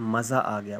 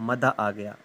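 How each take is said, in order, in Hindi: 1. पहला शब्द z आवाज़ के साथ बोला जाता है। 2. पहला शब्द d आवाज़ के साथ बोला जाता है। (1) "हम कहते हैं कि मज़ा आ गया" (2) "वो कहता है मदा आ गया"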